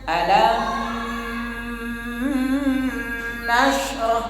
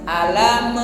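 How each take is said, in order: First: The m is held long with a nasal hum. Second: The m ends with a bouncing burst of release. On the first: "Nah itu ditahan. Sehingga ada khaysyum" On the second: "nah itu ya dipantul namanya"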